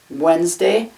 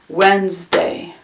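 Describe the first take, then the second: First: It is said with only two syllables. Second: It is said with only two syllables.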